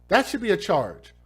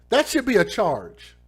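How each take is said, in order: Both takes have the same delivery.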